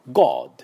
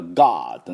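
First: British "God" with rounded O; British English accent. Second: American "God" with long open ah; American English accent. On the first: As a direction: say "God" like a Briton, gawd. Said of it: "イギリス人のGod". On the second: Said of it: "アメリカ人のGodなのか". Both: Shown as a demonstration.

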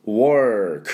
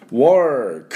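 First: Teacher repeating work in English. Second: Teacher modelling work in English. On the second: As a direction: work said with a rounded English W and R, louder. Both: Shown as a demonstration. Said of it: "という音になります".

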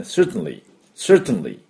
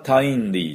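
First: "certainly" with T straight into N, like "sert-nly"; correct reduced certainly. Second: "certainly" with a full "tain" in the second syllable; wrongly spelled-out certainly. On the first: Teacher showing the right way, "certainly" as "sert-nly". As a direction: drop the "ai" in "certainly", T released into N. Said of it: "ティーエーアイは発音しません". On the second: Teacher showing the mistake, "certainly" with "tain" fully sounded. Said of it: "じゃないですね". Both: Shown as a demonstration.

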